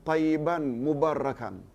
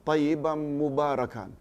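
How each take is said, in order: No difference in how they are said.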